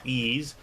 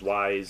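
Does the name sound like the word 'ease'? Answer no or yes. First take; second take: yes; no. First: The name sounds like the word 'ease'. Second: The name does not sound like 'ease'. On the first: This is the official pronunciation. The speaker calls it right. "I know it's pronounced Ease" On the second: This is the speaker's habitual pronunciation. The speaker calls it wrong. "I always used to pronounce it as Ys"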